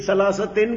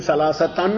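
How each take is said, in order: First: ثلاثتن ending in "-tin"; genitive ending. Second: ثلاثتن ending in "-tan"; accusative ending. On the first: Teacher questions the puzzling case in the verse, genitive "-tin" ending. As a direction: say ثلاثتن with an "i" in the final syllable, "salasatin". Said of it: "تو یہ ثلاثتن کیا ہوا". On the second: Teacher gives the expected case of the word, accusative "-tan" ending. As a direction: say ثلاثتن with an "a" in the final syllable, "salasatan". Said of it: "پھر ثلاثتن ہونا چاہیے". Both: Shown as a demonstration.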